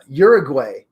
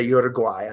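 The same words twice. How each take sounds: First: Uruguay said YOOR-uh-gway, ending like way; Uruguay with the final syllable as gway, English style; anglicised Uruguay. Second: Uruguay said yoo-ruh-GWHY, ending like why, Spanish style; corrected Uruguay. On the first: Podcaster reading listener countries, saying Uruguay the English way. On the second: Podcaster correcting herself, saying Uruguay the Spanish way. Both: Shown as a demonstration. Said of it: "Sorry, I should say Uruguay".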